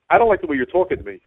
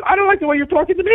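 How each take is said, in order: First: Said in the usual way. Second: High, sing-song mimicking echo; mocking echo. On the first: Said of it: "he goes to me, the dispatcher". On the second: Driver mocking the dispatcher's words right back at him, high. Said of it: "I said".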